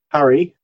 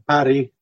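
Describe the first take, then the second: First: The R is a smooth English-like R. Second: The R is a trilled, rolled R. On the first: It means creek or river. "with an R like in English" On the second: It means lit, as in lighting a fire. "with a rolled R"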